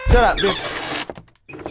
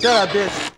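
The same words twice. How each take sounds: First: Slow, stretched-out insult; drawn out slowly. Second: Said in the usual way. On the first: Real, not acted. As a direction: stretch every word out. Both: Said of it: "repeats same words differently".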